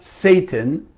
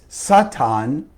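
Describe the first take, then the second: First: It is pronounced the usual English way. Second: It is pronounced the Aramaic way. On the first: The speaker calls it wrong. "not Satan" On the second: The speaker calls it right. "what in Aramaic is Satan"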